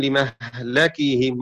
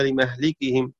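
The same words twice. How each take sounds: First: لمهلكهم with the lam opened, said slowly as li-mahlakihim; slow recitation of لمهلكهم with fatha on the lam; Shu'ba's reading. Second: لمهلكهم with a kasra on the lam, said as li-mahlikihim; Hafs's reading. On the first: Teacher recites Shu'ba's reading for students, slow لمهلكهم with open lam. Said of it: "قرأ شعبة بفتح اللام". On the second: Teacher recites Hafs's reading for students, لمهلكهم with kasra on lam. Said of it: "وقرأ حفص بكسرها". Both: Shown as a demonstration.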